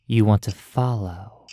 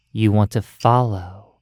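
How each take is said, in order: Both takes have the same delivery.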